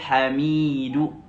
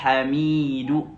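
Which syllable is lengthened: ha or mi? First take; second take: mi; mi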